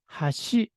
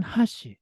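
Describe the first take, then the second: First: 하시 with 하 low and 시 high; low-high pitch accent. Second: 하시 with 하 high and 시 low; high-low pitch accent. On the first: Teacher shows students the word for leg, 하시 low then high. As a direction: start 하시 low and step up on 시. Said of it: "첫 번째 박은 낮게, 두 번째 박은 높게". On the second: Teacher shows students chopsticks in Tokyo Japanese, 하시 high then low. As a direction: start 하시 high and drop on 시. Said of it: "첫 번째 박을 높게, 두 번째 박을 낮게". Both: Shown as a demonstration.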